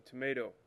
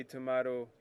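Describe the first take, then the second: First: "tomato" with a long AY in the middle. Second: "tomato" with an AH in the middle. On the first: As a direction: say "tomato" as tuh-MAY-doh. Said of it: "I'll say tomato". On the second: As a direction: say "tomato" as tuh-MAH-doh. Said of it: "you say tomato". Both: Shown as a demonstration.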